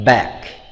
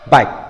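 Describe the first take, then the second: First: The vowel falls between 'eh' and 'ah' sounds. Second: The vowel sounds unlike a native English vowel. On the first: The speaker calls it right. "the correct way is uh, back" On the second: The speaker calls it wrong. "they often say this word like uh, back ... very different from the native sound"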